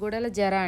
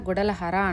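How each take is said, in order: First: The last part has a J sound. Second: The last part has an H sound. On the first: This is how it is written. "జే వస్తుంది" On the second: This is how people here say it. "ఇక్కడంతా గుడెల హర అంటాము"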